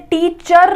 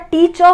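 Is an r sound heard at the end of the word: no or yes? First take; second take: yes; no. First: The word ends with a pronounced r sound. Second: The word ends without any r sound. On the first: The speaker calls it wrong. "टीचर नहीं होता" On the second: The speaker calls it right. "टीचर होता है"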